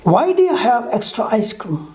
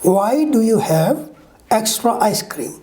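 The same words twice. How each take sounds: First: The words are reduced and run together. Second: Every word is said fully and separately.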